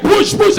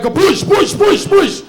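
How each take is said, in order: First: High, loud barked push; mock trainer yell. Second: High, loud repeated push; mock trainer yell. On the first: Gym trainer yelling at a client, mock yell. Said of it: "Why are you yelling at me like". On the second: Gym trainer yelling at a client, hammed-up yell. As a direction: chant it like a drill trainer. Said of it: "this guy's just yelling at you around like".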